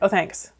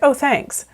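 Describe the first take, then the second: First: It is said in a very flat tone. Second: It is said with some warmth and life.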